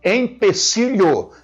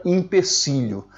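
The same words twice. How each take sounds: First: Slow, higher Empecilho as "em-pe-SI-lho". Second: Empecilho as "im-pe-SI-lho". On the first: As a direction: draw out Empecilho with a clear "em" start. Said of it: "com E". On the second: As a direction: open empecilho on "im" instead of "em". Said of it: "nunca empecilho". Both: Shown as a demonstration.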